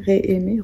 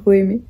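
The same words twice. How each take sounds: First: "ré-aimer" with an é in the first syllable; testing pronunciation. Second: "re-aimer" with a schwa in the first syllable; testing pronunciation. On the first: Vlogger unsure of the word, trying "ré-aimer" with "ré". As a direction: say "ré-aimer" with a clear "ré". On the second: Vlogger unsure of the word, trying "re-aimer" with "re". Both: Real, not acted. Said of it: "re-aimer, à aimer à nouveau".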